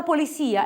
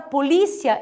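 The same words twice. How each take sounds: First: Polícia said Spanish-style, stressed po-li-SÍ-a; stress on final í. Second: Polícia said po-LÍ-cia, stressed on LI; Portuguese stress. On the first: Teacher introducing the Spanish word, polícia stressed on SI. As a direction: put the beat on SI in polícia. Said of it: "em espanhol é polícia". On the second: Teacher recalling the Portuguese word, polícia stressed on LI. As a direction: put the beat on LI in polícia. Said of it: "palavra polícia em português". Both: Shown as a demonstration.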